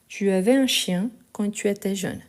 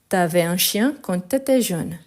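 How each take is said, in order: First: Each 'tu' is said in full before the verb. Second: Each 'tu' is shortened to a bare t-sound. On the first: This is the form used in writing. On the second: This is the form used in casual speech.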